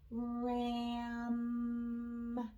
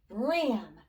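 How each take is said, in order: First: The word is stretched out slowly. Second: The word is said quickly. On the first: "let's blend slow" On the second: "Now say it fast"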